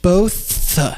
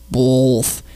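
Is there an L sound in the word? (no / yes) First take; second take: no; yes. First: The word has no L sound before th. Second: The word has an added L sound before th. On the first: The speaker calls it right. "Both is pronounced B-O-T-H" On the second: The speaker calls it wrong. "I don't remember there ever being a W or an L in the word both"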